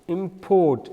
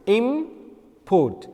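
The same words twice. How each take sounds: First: The stress is on the second syllable. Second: The stress is on the first syllable. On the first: It is a verb. "the strike is on a second syllable, second sound, that is port" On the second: It is a noun. "there is a strike or a stress on a word im and then put"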